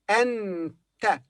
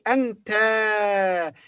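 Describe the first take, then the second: First: The final vowel is short. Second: The final vowel is long. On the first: The speaker calls it right. "So we say anta" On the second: The speaker calls it wrong. "We don't say anta because this is not a long vowel"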